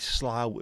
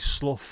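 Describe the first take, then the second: First: The vowel sounds like the one in 'cow'. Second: The vowel sounds like the one in 'cup'. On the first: "as in the bough of a tree" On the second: "as in tough or clough"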